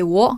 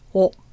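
First: It starts with a clear W sound. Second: It starts with almost no W sound. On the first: "Even though I say wo" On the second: "sometimes we don't hear the W. It's just wo"

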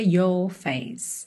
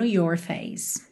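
First: It has a British accent with a soft R. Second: It has an American accent with a curled R. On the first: "Mais britânico seria your face" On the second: "Se você preferir enrolar um pouquinho mais o R, como seria um sotaque mais americano"

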